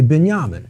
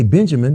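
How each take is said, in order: First: It has a Middle Eastern style pronunciation. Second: It has a plain American English pronunciation. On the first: This is how the Lebanese side of the family says it. "they say" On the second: This is how the speaker's own community says it. "we say"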